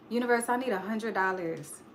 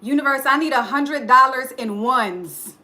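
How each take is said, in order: First: Soft, small request; a soft, unsure plea; timid ask. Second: Louder, firm declaration; a confident, louder ask; bold demand. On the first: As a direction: ask the universe meekly. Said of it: "Do y'all think that's enough?". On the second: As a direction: tell the universe boldly what you want. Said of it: "That's not enough". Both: Shown as a demonstration.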